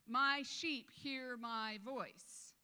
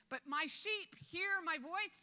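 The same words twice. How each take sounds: First: Each word laid down slowly; slow emphatic scripture. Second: Higher, louder and slow; raised emphatic scripture. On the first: Pastor to congregation, drawing the verse out slowly. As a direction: let every word land, slow and deliberate. Quoting Jesus, slowed for emphasis. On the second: Pastor repeats the verse to the church, higher and slow. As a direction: lift it up, rising on hear. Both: Acted.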